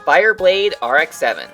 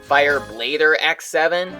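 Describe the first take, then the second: First: The R is said as a separate letter. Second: The R joins the word as an '-er' ending. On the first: "the letter R is capitalized" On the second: "Did you guys think his name was pronounced Fireblader X seven?"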